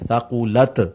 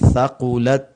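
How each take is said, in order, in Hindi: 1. आखिरी t में तेज़ उछाल है। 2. आखिरी t हल्का है और इसमें उछाल नहीं है। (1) "इस तरह लोग पढ़ते हैं थकुलत, एक ये गलती है" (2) "ता की हल्की सी साउंड भी आए और वहां पर कलकला भी ना हो"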